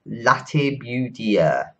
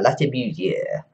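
First: The name is said with a plain English accent. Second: The name is said with a French accent. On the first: The speaker calls it wrong. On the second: The speaker calls it right.

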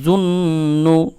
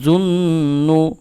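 First: The nasal sound is held through the nose. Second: The same.

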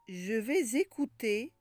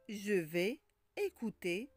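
First: The final consonant links into the next word. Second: The two words are said without a link.

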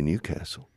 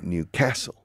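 First: The stress falls on the first part, New. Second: The stress falls on the second part, castle. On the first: The speaker calls it wrong. "The people in Newcastle don't say Newcastle" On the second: The speaker calls it right. "They say Newcastle. / the accent's on the second part"

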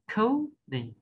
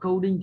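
First: The first syllable is high, the second drops low. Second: Both syllables are said on a flat, level pitch. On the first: The speaker calls it right. "đọc có cái âm trọng âm nó cao lên đấy, đọc bổng lên đấy" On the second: The speaker calls it wrong. "Hay là coding thì nó vẫn ngang"

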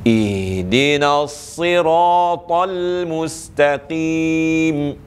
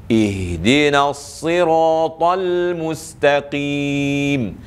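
No difference in how they are said.

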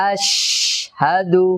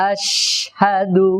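The two takes are said the same way.

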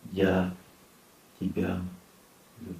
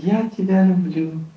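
First: The voice is deep and heavy. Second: The voice is light and easy. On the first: It comes from the heart and is sincere. The speaker calls it right. "Удобно так говорить? Нет. Неудобно. Но надо" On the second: It is said casually and is not believed. The speaker calls it wrong. "То удобно так говорить? Удобно. Она поверит? Нет"

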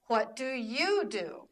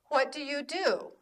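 First: The stress falls on the word 'you'. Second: The stress falls on the final word 'do'. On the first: The speaker is asking the same question back. "And when she asks me, it's" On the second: The speaker is asking the question first. "When I ask her, it's"

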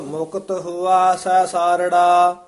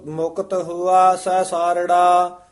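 Both takes have the same delivery.

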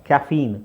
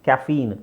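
The two takes are said the same way.

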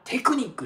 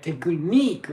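First: It is said in Japanese katakana style. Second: It is said in English style. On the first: The speaker calls it wrong. "みんなテクニックって思ってるでしょ。" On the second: The speaker calls it right. "これテクニックが正しいので注意してくださいね。"

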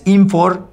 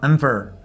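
First: The second vowel is a full O sound. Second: The second vowel is a reduced schwa. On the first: The speaker calls it wrong. "No es infor" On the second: The speaker calls it right. "sino infer"

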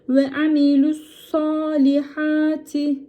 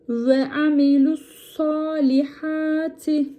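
The two takes are said the same way.

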